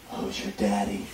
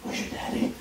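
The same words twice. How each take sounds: First: Low murmured come-on, much softer; husky whisper. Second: Botched line, softly whispered. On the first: Friend demonstrating the bedroom line, soft low whisper. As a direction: breathe it into her ear. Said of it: "whisper into her ear". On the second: Husband fumbling the line to his wife, pure whisper. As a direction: breathe the wrong line into her ear. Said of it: "And I whisper". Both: Retold or imitated.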